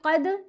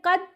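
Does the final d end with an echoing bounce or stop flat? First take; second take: echoing bounce; stop flat. First: The final d is released with an echoing bounce. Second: The final d stops flat with no bounce. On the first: The speaker calls it right. "ये ठीक है" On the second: The speaker calls it wrong. "तो ये गलत है"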